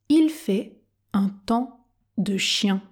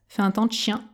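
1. Elle est prononcée très lentement et avec soin. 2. Elle est prononcée rapidement, avec des sons avalés. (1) "Version tortue" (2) "version express"

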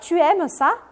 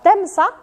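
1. A palavra tu é pronunciada por extenso. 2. A vogal de tu é suprimida e a palavra se liga à seguinte.

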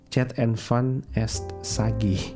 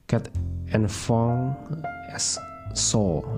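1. Diucapkan huruf demi huruf sesuai ejaannya. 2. Diucapkan dengan lafal Prancis, huruf yang tidak terdengar dihilangkan. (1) "ejaan non Perancisnya ... seperti tulisannya" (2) "dalam bahasa Perancis, ketika orang berujar"

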